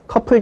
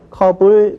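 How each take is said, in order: First: The middle consonant is a strong aspirated p. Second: The middle consonant is a soft plain b. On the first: The speaker calls it wrong. "만약 피읍으로 쓴다면 커플, 그렇죠? 커플 좀 가져와 이렇게 발음을 해야 되지만 아무도 그렇게 발음 안 하죠" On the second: The speaker calls it right. "컵을 그렇게 발음합니다"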